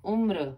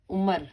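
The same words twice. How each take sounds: First: उम्र said as umra with the r joined to m; correct umr. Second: उम्र said as umər with an extra vowel; wrong umr. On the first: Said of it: "माँ के पैर में र". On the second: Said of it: "उम्र नहीं बोलते". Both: Shown as a demonstration.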